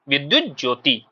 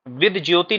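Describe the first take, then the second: First: The first word is said in full. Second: The first word is clipped to two sounds. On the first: The speaker calls it right. "इसको सही से पढ़ना है" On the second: The speaker calls it wrong. "विद ज्योति नहीं होता है आपका"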